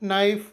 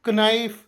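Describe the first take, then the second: First: No k sound is heard; it starts with n. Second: A k sound is heard before the n. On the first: The speaker calls it right. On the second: The speaker calls it wrong.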